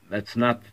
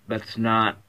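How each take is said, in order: Both takes have the same delivery.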